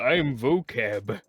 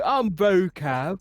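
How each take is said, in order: First: It is said in a normal voice. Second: It is said in an exaggerated British accent. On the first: "you're not doing the voice" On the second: "in like a stereotypical British voice"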